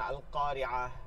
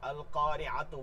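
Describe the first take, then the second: First: The word ends with an h sound. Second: The word ends with a t sound and vowel. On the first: The reader stops on the word. "যখন থামবেন তখন তার নিচের গোল হায়ের ব্যবহার করতে হবে" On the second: The reader continues into the next word. "যখন জবর জের পেশ দিয়া পড়ে যাইতে থাকবেন... তখন তায়ের মতন উচ্চারণ করবেন"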